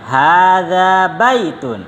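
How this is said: It has the intonation of a statement. It tells the listener something. The speaker calls it right. "Ini intonasinya penghabaran, bukan pertanyaannya"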